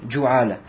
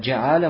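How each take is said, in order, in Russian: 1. Первый гласный — звук u. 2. Первый гласный — звук i.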